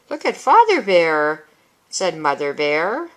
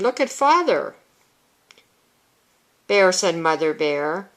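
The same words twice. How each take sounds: First: There is a pause after "Father Bear". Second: There is no pause after "Father Bear". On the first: The speaker calls it right. "take a breath here" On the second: The speaker calls it wrong.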